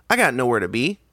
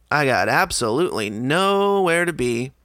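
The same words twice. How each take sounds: First: Said in the usual way. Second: "absolutely nowhere" slowed and stretched, NOWHERE drawn out; drawn-out emphasis. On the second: Retold or imitated. Customer thinking to himself, "nowhere" drawn out emphatically. Retold thought, repeated for emphasis.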